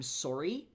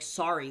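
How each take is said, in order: First: It has a Canadian-sounding vowel, not 'ah'. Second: It has an open 'ah' vowel, like 'sari'. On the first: "because I've been listening to more Canadians, I end up now saying I'm sorry instead" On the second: "I'm from Colorado, so sorry is like ah like sorry, like pronouncing the the article of clothing"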